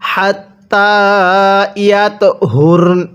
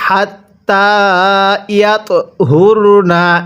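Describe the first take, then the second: First: The last word ends on a consonant. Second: The last word ends with a vowel. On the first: The reader stops at this point. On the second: The reading continues without stopping.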